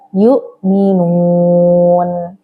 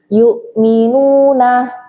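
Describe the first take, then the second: First: The final vowel is dropped, ending on n. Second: The word ends with a final vowel.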